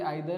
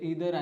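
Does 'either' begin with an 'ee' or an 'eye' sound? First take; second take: eye; ee. First: The first vowel sounds like 'eye'. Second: The first vowel sounds like 'ee'. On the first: "British English जी आहे त्यामध्ये आयदर आणि नायदर म्हणतात" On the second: "American ॲक्सेंटमध्ये ते ईदर आणि नीदर वाचतात"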